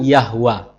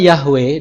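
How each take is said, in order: First: The last vowel sounds like 'a'. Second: The last vowel sounds like 'e'. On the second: "Nama Yahweh"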